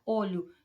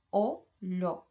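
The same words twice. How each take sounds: First: Said in the usual way. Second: "Olho" split into two separate beats, o-lho; syllable by syllable. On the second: Shown as a demonstration. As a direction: say "Olho" as two distinct voice pulses. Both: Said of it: "Tenho duas emissões de voz".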